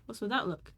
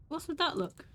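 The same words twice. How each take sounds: First: Said in the usual way. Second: Pitched up, pressing hard on that; tense question. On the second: Acted. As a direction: demand it, stressing that. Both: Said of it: "So what you just said again".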